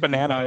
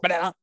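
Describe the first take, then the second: First: The voice is at a normal pitch. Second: The voice is pitched very high. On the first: "instead of banana" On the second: "it makes their voices like 5x higher than a normal human"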